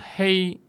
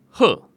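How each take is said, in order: First: It is read in its everyday modern pronunciation. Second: It is read in a special older pronunciation. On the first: "黑色的黑" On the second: "读为褐"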